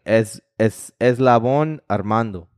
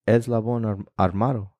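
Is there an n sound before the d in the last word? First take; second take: yes; no. First: The last word has an n before the d. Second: The last word has no n before the d. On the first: The speaker calls it wrong. "it's not even [name]" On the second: The speaker calls it right. "It's Eslabón Armado"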